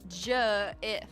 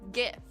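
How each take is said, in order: First: The word starts with a J sound. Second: The word starts with a hard G sound. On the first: The speaker calls it wrong. "You're wrong if you say J" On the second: The speaker calls it right. "because it's spelled G, I I say GIF"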